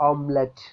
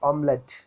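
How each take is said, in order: Both takes have the same delivery.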